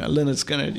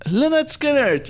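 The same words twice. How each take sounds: First: Said in the usual way. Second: Finally remembers the band, elated; excited recall. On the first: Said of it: "they were number one on Google". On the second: Real, not acted.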